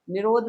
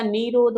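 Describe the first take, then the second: First: निरोध with a short, quick 'i' in the first syllable; short first vowel. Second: निरोध with a long 'ee' in the first syllable, 'nee-rodh'; long first vowel. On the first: Teacher showing students the wrong form, निरोध with short i. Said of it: "निरोध होता है". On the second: Teacher correcting the word for students, निरोध with long ee. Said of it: "निरोध नहीं होता". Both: Shown as a demonstration.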